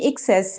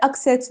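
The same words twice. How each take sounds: First: "एक्सेस" said as "ik-SES", short first vowel; "excess" pronunciation. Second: "एक्सेस" said as "AK-ses", open first vowel; "access" pronunciation. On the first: Teacher separating it from access, "एक्सेस" said as "ik-SES". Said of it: "लेकिन ये एक्सेस है". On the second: Teacher contrasting look-alike words, "एक्सेस" said as "AK-ses". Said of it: "वो रसाई होता है". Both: Shown as a demonstration.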